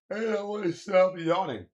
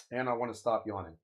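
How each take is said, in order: First: Higher and louder put-on whine; goofy high complaint; mock whiny voice. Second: Said in the usual way. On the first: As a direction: squeal it like a silly character. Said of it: "repeats it in a plain voice". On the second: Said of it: "said again after the put-on take".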